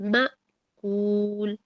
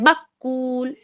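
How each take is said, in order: First: The catch is said gently and smoothly. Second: The catch is said with a hard jolt. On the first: The speaker calls it right. "नरमी के साथ" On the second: The speaker calls it wrong. "अक्सर लोग किस तरह पढ़ते हैं"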